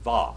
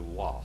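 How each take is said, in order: First: The word begins with a v sound. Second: The word begins with a w sound. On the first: This is the modern pronunciation. "the modern Hebrew, they do not say wow. What do they say? Va" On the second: This is the ancient pronunciation. "We pronounce it like biblical Hebrew"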